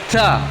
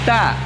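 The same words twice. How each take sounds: First: The t is released with a strong puff of breath. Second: The t is released with a light puff of breath. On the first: The speaker calls it wrong. "tidak seperti itu" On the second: The speaker calls it right. "memiliki sifat hamas, tapi tidak besar"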